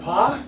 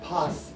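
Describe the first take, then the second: First: The final S sound is left silent. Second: The final S sound is clearly pronounced. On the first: The speaker calls it wrong. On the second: The speaker calls it right.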